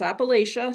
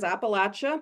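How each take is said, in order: First: It uses the Northern US pronunciation. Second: It uses the Southern US pronunciation. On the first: "up north it's" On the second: "here in the South, we refer to it as"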